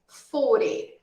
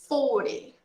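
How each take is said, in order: No difference in how they are said.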